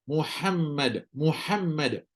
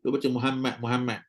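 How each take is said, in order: First: Muhammad read slowly with a breathy ha and a doubled m; clear ha in Muhammad. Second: Muhammad mumbled with the ha swallowed; wrong ha in Muhammad. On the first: Teacher demonstrates the correct reading. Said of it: "Sebut nama Nabi". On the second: Teacher demonstrates the wrong reading. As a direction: rush Muhammad and drop the ha. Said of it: "Tak boleh". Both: Shown as a demonstration.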